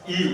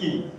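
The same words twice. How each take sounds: First: ई stretched long; long ii demo. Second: ई said short and quick; short i demo. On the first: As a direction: hold ई long. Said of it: "बड़ी ई का उच्चारण करते हैं". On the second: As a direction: clip the ई short. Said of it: "इसका बहुत ही कम समय में उच्चारण". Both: Shown as a demonstration.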